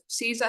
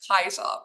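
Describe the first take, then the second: First: The word begins with a soft s sound. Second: The word begins with a hard k sound. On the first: This is the modern English pronunciation. "how we pronounce it in English" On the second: This is the original Latin pronunciation. "the hard K sound at the start"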